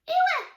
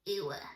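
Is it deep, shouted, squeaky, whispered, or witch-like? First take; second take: squeaky; witch-like. First: It is said in a squeaky voice. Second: It is said in a witch voice.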